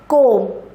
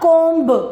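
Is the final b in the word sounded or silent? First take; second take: silent; sounded. First: The final b is silent. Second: The final b is pronounced. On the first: The speaker calls it right. "It is comb" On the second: The speaker calls it wrong. "not comb"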